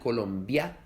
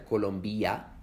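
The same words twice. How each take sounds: First: The vowels 'i' and 'a' join in one syllable. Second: The vowels 'i' and 'a' form two separate syllables. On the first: The speaker calls it right. "se pronuncian Colombia" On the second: The speaker calls it wrong. "no se pronuncian Colombia"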